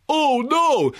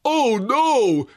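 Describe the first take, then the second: First: Hammed-up, much higher and louder "Oh no!"; mock the actor's anguished cry; Nicolas Cage impression. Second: Mock Nicolas Cage. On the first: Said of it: "is just Nicolas Cage going". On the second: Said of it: "the horse-faced Nicolas Cage going".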